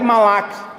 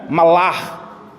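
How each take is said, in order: First: It ends in a plain, Portuguese-style k sound. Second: The final consonant is drawn out in the throat. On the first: "se a gente for falar mesmo aqui no nosso portuguesado" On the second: "no hebraico é malar. Você puxa um pouco o"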